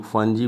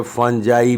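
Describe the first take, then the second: First: फंजी ending in a long "ee" sound; फंजी with a "jee" ending, not "jai"; alternative pronunciation. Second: फंजाई ending in a "jai" sound, rhyming with "eye"; फंजाई with a long "eye" ending; alternative pronunciation. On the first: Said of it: "कुछ लोग फंजी बोलते हैं". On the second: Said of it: "कुछ लोग जो है फंजाई भी बोलते हैं". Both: Shown as a demonstration.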